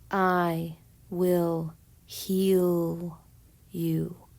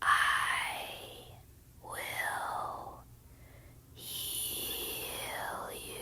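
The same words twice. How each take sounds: First: It is said in a normal voice. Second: It is said in a whisper.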